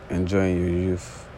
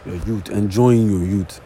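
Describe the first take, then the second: First: "youth" ending in a soft th sound. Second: "youth" said as "yoot", with a hard t; slow, deliberate "yoot" for "youth"; switched accent. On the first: Real, not acted. Introducing the next topic, "youth" with a soft th. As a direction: say "youth" with a breathy th at the end, slowly. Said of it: "I totally feel like I switch in that". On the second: Shown as a demonstration. Correcting himself on the topic title, "youth" as a hard "yoot". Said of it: "I have different accent".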